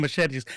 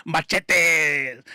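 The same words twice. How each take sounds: First: Said in the usual way. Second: "Machetes!" as mah-CHEH-teh in a Spanish accent; Spanish-accented exclamation. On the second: Shown as a demonstration. Repeats word with Spanish flair.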